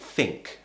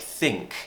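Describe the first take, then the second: First: The first sound uses top teeth on lip. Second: The first sound uses the tongue between teeth. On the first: "a Cockney might pronounce as think ... They put the top teeth on the bottom lip" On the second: "words like think"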